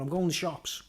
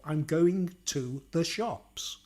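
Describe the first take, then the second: First: Said in the usual way. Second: Slow, carefully separated posh English; posh accent. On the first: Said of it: "What's the difference between me going". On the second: Shown as a demonstration. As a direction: say each word slowly in a posh accent. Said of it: "But the posh accent".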